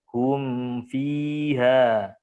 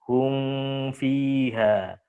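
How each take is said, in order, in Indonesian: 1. Bunyi m diucapkan penuh sebelum f. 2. Bunyi m menyatu ke dalam f. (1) "Jadi sempurnakan dulu mimnya" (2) "Jangan sampai dibaca hum fiha"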